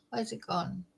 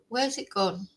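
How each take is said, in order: First: Quiet mutter under breath; muttering to herself. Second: Said in the usual way. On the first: Real, not acted. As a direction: mutter it softly, searching. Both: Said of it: "There's a new thing on StreamYard".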